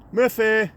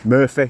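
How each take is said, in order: First: Higher, sing-song call to the dog. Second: Said in the usual way. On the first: Real, not acted. Calling his dog by name. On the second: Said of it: "You see, there's Murphy".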